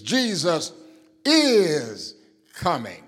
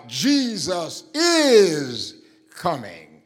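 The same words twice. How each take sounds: First: "is" held long and heavy after a pause; pause, then drag out "is"; stress on is again. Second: "is" drawn out, louder and slower; stress on is. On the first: Preacher repeating the line, weight on "is". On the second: Preacher to congregation, stretching and punching "is". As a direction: lean hard on "is" in "Jesus is coming". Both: Shown as a demonstration. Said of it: "The emphasis is on is".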